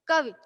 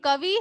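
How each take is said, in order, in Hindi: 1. अंतिम स्वर झटके से कटा हुआ है। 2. अंतिम स्वर खिंचा हुआ है।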